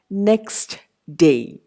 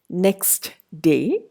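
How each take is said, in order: First: The t at the end of next is pronounced. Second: The t at the end of next is pronounced.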